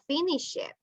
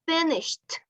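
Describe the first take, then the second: First: The ending is an extra syllable. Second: The ending is a single consonant sound. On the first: The speaker calls it wrong. "It's not finish it" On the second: The speaker calls it right.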